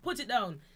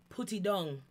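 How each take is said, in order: First: It is said with English-like pronunciation. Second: It is said in broad patois pronunciation. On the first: "Sometimes it's put it down" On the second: "Sometimes it becomes full patois, so no English"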